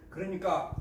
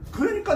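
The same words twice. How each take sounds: First: Said in the usual way. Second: 그러니까 jumps much higher, punched; sudden high-pitched 그러니까 springing into the point; high emphatic 그러니까. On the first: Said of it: "repeated connective, plain take". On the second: Shown as a demonstration. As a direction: launch 그러니까 way up to grab attention. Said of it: "repeated connective, marked take".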